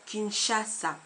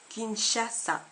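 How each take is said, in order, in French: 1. La consonne du milieu est un son 'sh' doux. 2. La consonne du milieu est un son 'sh' doux.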